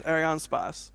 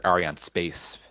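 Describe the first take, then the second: First: Arianespace ending in "spahss"; French-style pronunciation. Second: Arianespace ending like English "space"; English pronunciation. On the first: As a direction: say Arianespace with an open A in the last syllable. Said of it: "that's how Chris G says it is". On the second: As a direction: say Arianespace the English way, rhyming with "pace". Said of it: "as an English speaker". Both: Shown as a demonstration.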